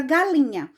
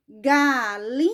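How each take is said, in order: First: Said in the usual way. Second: "galinha" drawn out slowly in three beats; "galinha" slowly, as ga, li, nha; split into syllables. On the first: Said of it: "se eu contar na mão". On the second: Shown as a demonstration. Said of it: "eu abri a boca três vezes".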